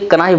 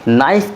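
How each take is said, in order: First: The word starts with a k sound. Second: The word starts without a k sound. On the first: "pronunciation जो करते हैं उसे कनाइफ बोलते हैं" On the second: "नाइफ की जो स्पेलिंग है वो सेम है"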